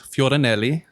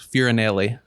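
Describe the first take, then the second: First: The name is said the Italian way. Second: The name is said the Mississippi way.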